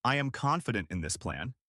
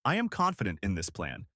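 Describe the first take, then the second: First: "I am confident in this plan," ending in a rising question tune; uptalk. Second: "I am confident in this plan," falling firmly at "plan,"; downward inflection. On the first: Coach shows uptalk on a statement, rising. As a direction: let "plan," lift like a question. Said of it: "instead of". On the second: Coach models a confident statement, firm falling tune. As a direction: land "plan," low and settled. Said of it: "with a clear downward inflection". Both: Shown as a demonstration.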